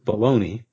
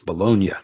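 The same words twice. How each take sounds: First: The word ends with a 'nee' sound. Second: The word ends with a 'nya' sound. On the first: It names the sausage. "The sausage is named after the city, but we pronounce it Bologna" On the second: It names the city in Italy. "but it's the city, it's Bologna. That G there is to make the N into an, what the Spanish call an ñ, ñ sound"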